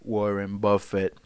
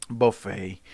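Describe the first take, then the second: First: Said in the usual way. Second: Buffet said as "boo-FAY" like the food; Buffet rhymed with "hey", the name turned into a meal; buffet pun. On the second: Shown as a demonstration. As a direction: stretch Buffet into the buffet word.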